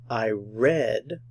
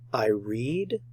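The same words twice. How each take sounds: First: The vowel is short, like in 'red'. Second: The vowel is long, like in 'reed'. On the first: The action happened in the past. "In the past" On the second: The action is present or habitual. "In the present tense"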